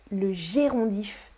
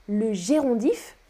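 The two takes are said the same way.

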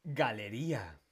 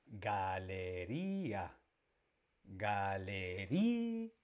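First: Said in the usual way. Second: "Galería" very slowly, stretching the RÍ; stressed syllable drawn out. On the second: Shown as a demonstration. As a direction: linger on RÍ in "Galería", then release the a. ("Galería" muy lento, alargando la RÍ) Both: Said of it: "la fuerza la tiene en la penúltima".

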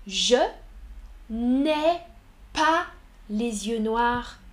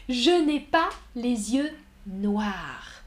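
First: Je, n'ai, pas spaced apart; word by word. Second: Said in the usual way. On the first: Shown as a demonstration. Teacher separating the words of a negation for learners. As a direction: pause after each word to show the negation. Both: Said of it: "Observez la négation".

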